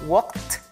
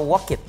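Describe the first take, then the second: First: The ending is a single consonant sound. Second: The ending is an extra syllable. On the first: The speaker calls it right. "walk menjadi walked" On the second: The speaker calls it wrong. "bukan walked atau walk it. No"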